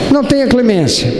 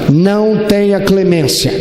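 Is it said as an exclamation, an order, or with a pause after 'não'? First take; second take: exclamation; order. First: It is said as an exclamation, no pause. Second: It is said as a flat order, no pause. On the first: "Ou uma exclamação" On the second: "É um imperativo, uma ordem"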